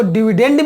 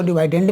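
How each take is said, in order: First: डिविडेंड with a short i, "di-VI-dend"; dividend said "di-vi-dend". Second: डिवाइडेंड with a long "vai", "di-VAI-dend"; dividend said "di-vai-dend". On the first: Teacher showing students one way to read the word, short i. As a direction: say डिविडेंड as "dih-vih-dend", short vowels. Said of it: "कई लोग इसको डिविडेंड भी पढ़ते हैं". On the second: Teacher showing students the other way to read the word, long vai. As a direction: say डिवाइडेंड with the diphthong "vai" in the middle. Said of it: "कई लोग इसको डिवाइडेंड भी पढ़ते हैं". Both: Shown as a demonstration.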